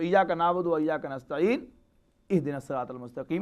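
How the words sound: A pause comes before the final phrase's initial vowel. "अगर वहां वक्फ कर लिया जाए"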